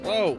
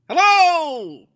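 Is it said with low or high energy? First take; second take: low; high. First: It is said with low energy. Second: It is said with high energy.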